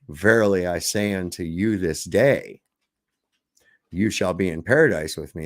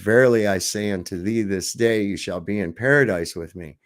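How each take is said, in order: First: The pause comes after the words this day. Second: The pause comes before the words this day. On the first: The speaking is happening today. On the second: The arrival in paradise happens today.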